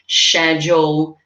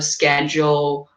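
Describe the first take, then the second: First: It is pronounced in a British accent. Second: It is pronounced in an American accent. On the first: "They said schedule" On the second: "instead of schedule"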